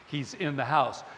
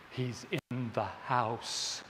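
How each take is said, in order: First: Said in the usual way. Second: Low, slow hushed fear; "He's in the house" said slow and low, full of dread. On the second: Retold or imitated. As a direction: breathe it out low and slow, scared stiff. Retold horror scene, terrified viewer.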